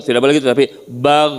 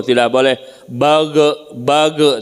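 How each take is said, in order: First: "bag" ending in a firm, unbounced gh; "bag" clipped with no echo; correct still gh. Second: "bage" with a bounced vowel after the g; "bage" said wrongly as bag-e; Arabic ghin mispronounced "bage" with a qalqalah bounce; wrong bouncing gh. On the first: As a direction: correct ghin without bounce in "bag". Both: Shown as a demonstration.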